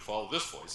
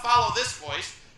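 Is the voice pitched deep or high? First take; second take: deep; high. First: The voice is pitched low and sounds rich. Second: The voice is pitched high and sounds nasal. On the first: The speaker sounds like a leader. The speaker calls it right. "you might be more inclined to follow this voice" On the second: The speaker does not sound like a leader. The speaker calls it wrong. "You wouldn't want to follow this voice"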